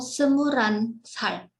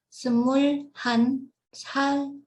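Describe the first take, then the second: First: The l and h blend together into one flowing word. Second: The l and h are kept apart as separate words. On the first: "atau semuran sal" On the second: "Bacanya semul han sal"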